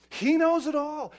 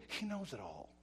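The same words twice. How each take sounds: First: High, loud declaration; forceful preaching. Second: Soft, falling statement; subdued warning. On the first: Preacher on God seeing every sin, forcefully. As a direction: hammer it out at raised pitch and volume. Refrain repeated at full force. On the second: Preacher on God seeing private sins, subdued. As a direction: say it softly, letting it sink in. First, subdued take of refrain. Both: Real, not acted.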